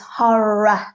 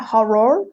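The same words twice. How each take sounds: First: The ending is said with a soft ah sound. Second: The ending is said with a strong R sound. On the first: The speaker calls it right. "it's got a ah sound at the end" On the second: The speaker calls it wrong. "try to go horror, roar, because we think R O R"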